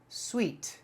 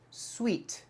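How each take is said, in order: First: The word sounds exactly like 'sweet'. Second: The same.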